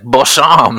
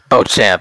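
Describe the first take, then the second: First: The 'ch' is a soft French sh sound. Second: The 'ch' is a hard English ch sound. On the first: The speaker calls it wrong. "like I was about to sit down at a fancy restaurant" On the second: The speaker calls it right. "Yeah, that's good"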